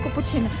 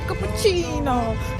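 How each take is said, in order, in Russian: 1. Слово произносится ровно, без энергии. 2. Слово произносится с живым итальянским колоритом. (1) "очень скучно произносит слово капучино" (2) "они здесь говорят капучино"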